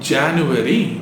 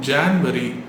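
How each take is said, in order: First: It is said with a 'u' sound after 'Jan'. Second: It is said without a 'u' sound after 'Jan'. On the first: The speaker calls it right. "அப்போ அதை எப்படி கரெக்டாக ப்ரனவுன்ஸ் பண்ணுறது?" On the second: The speaker calls it wrong. "ஜான்வரி அப்படின்னு சொல்லிட்டு இருக்கோம்"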